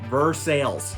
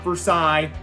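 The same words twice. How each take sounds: First: It is sounded out as the letters suggest. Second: It is said with a French pronunciation. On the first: This is how the Kentucky town is called. The speaker calls it right. "It is pronounced Versailles" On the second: This is how the place in France is called. The speaker calls it wrong. "It's not Versailles. We're not in France"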